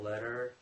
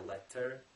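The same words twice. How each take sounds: First: The middle consonant is a soft D-like flap. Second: The middle consonant is a clear, crisp T. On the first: "many many letters T become D" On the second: "I didn't say letter"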